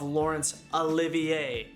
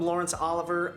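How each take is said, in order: First: The surname ends in an extra 'ay' sound. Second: The surname ends in a plain 'er' sound. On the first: The speaker calls it right. "I screwed up the pronunciation of" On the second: The speaker calls it wrong. "I kept calling him"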